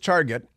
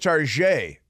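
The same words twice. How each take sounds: First: It is said with a plain English pronunciation. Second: It is said with a French-style pronunciation.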